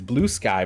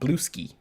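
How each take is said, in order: First: The second word ends with an 'eye' sound. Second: The second word ends with an 'ee' sound. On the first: The speaker calls it right. "one of his blue sky posts" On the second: The speaker calls it wrong. "he pronounced it blue ski"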